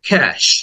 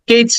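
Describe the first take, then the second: First: The word ends with an sh sound. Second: The word ends with a ch sound. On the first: The speaker calls it right. "Then এ sound, এরপরে স sound" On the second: The speaker calls it wrong. "হয়তো বলে থাকো কেচ না"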